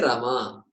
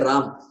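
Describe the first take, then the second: First: The name ends with a vowel after m. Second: The name ends on the consonant m. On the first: This is the southern way of saying it. "We'll say Rama" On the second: This is the northern way of saying it. "We don't say Ram"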